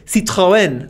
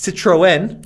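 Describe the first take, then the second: First: It is said in a French way. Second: It is said in a Northern US way.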